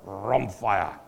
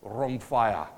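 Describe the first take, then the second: First: "rhomphia" drawn out slowly, with weighty force; powerful rhomphia. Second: Said in the usual way. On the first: Shown as a demonstration. Pastor tries out the Greek sword word, "rhomphia" slow and forceful. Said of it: "sounds a little bit powerful if". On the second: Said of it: "if I say it in the right accent".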